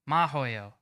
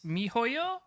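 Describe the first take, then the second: First: The first vowel sounds like 'ah'. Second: The first vowel sounds like 'ee'. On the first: The speaker calls it right. "Sorry, I thought it was an I" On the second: The speaker calls it wrong. "I think that's how you pronounce it"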